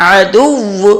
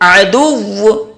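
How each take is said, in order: First: The word stops on the doubled w sound. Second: The same.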